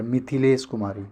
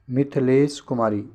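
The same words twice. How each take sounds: First: मिथिलेश as "mi-thi-lesh"; short i on थ. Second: मिथिलेश said as "mith-lesh", no i after थ; dropped short i. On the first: Teacher explains the vowel sign, clear "thi" in मिथिलेश. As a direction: sound the short i after थ in मिथिलेश. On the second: Teacher shows the misspelling, "mith-lesh" without the middle i. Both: Shown as a demonstration. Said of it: "था में छोटी की मात्रा".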